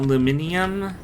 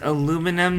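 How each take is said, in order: First: The word is said the British way. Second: The word is said the American way. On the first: This is how people in the UK say it. The speaker calls it wrong. "anybody from the U K who pronounces it that way" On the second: This is how the discoverer named it. The speaker calls it right. "it's aluminum"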